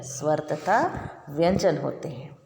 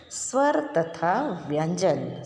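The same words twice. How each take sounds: First: Said in the usual way. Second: Slow dictation. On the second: Shown as a demonstration. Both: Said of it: "first मैं पढ़कर बताऊंगी आपको".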